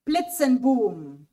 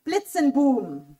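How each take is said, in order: First: "Blitzenboom" repeated just as slowly. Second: "Blitzenboom" read out slowly, syllable by syllable; slow word reading. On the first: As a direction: say "Blitzenboom" once more, slowly. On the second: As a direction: present "Blitzenboom" slowly to the class. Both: Shown as a demonstration. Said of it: "The first one is called".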